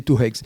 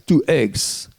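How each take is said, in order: First: "two eggs" said as "two heggs"; aspirated H on eggs. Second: "two eggs" with "eggs" starting on the vowel. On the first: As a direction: breathe a wrong H onto the start of "eggs". (h aspiré fautif devant « eggs ») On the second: (« eggs » prononcé sans h) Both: Retold or imitated. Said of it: "il n'y a pas d'H à eggs".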